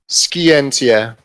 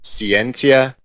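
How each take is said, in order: First: It uses the ancient classical Latin pronunciation. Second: It uses the modern church Latin pronunciation. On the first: "which is the ancient Latin form" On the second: "kind of the more modern church Latin version"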